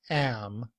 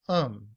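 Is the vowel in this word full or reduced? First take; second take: full; reduced. First: The word has a full, clear vowel. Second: The word has a weak schwa vowel. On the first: The speaker calls it wrong. "not am" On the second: The speaker calls it right. "with the schwa and the letter m to sound like um"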